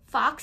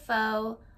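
First: It ends with an 'x' sound, like fox. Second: It ends on an open vowel, like foe. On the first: The speaker calls it wrong. "fox instead of faux" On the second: The speaker calls it right. "instead of faux"

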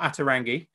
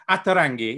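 First: The name is said with anglicized vowels. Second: The name is said with Italian-like vowels. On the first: The speaker calls it wrong. "I've always been pronouncing it wrong. It's not Ata Rangi" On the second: The speaker calls it right. "think of it as though you're pronouncing it in Italian"

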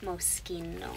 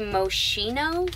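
First: The name is pronounced the Italian way. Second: The name is read as English spelling suggests. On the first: The speaker calls it right. "it's an Italian name and it is Moschino" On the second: The speaker calls it wrong. "Some of you might say Moschino, because that's how it's spelled"

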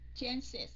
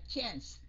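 First: The word is said with two syllables. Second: The word is said with one syllable. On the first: The speaker calls it right. "Tại nó hai âm S phía sau" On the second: The speaker calls it wrong. "Chứ mình không có đọc là chance"

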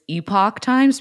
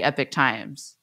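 First: Epoch is said as spelled, not like epic. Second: Epoch is said to sound like epic. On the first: "that's how Epoch is spelled" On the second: "I just say Epoch Times"

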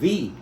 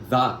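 First: The vowel is a long 'ee' sound. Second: The vowel is a short, reduced 'uh' sound. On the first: The next word starts with a vowel. "Kaya kapag vowel ang sinusundan ng article o determiner na THE, the ang kanyang pronunciation" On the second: The next word starts with a consonant. "Kapag consonant ang sinusundan niya, the ang kanyang pronunciation"

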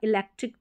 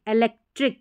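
First: The first vowel is an 'ee' sound. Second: The first vowel is a short 'eh' sound. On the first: "इलेक्ट्रिक भी pronounce कर देते हैं तो ऐसे भी कर सकते हैं" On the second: "ई का उच्चारण जो करेक्ट है वो ए ही पड़ेगा"

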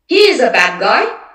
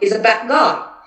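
First: It is said slowly with every sound complete. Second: It is said quickly with the final d shortened. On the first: "how much time you take with the first one" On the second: "So the second was obviously faster"

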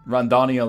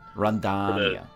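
First: The O vowel is short and plain. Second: The O vowel is long and emphasized.

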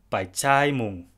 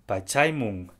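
First: The middle vowel is a long a. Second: The middle vowel is a short a. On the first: "The first one is with a long vowel, in this case a long a" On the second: "The second pronunciation is with a short a"

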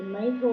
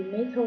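No difference in how they are said.

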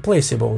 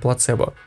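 First: The word is said with English pronunciation. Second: The word is said with Russian pronunciation. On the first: "В английском placebo" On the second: "А вот в русском, по-моему, плацебо"

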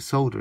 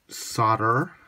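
First: It is said the British way. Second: It is said the American way. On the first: "We call it solder in the UK" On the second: "as they say in the US"

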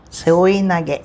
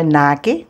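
First: All syllables are said evenly with no stress. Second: The second-to-last syllable carries a strong stress. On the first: The speaker calls it right. "Tudo igual" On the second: The speaker calls it wrong. "não é nage, não se paroxitona"

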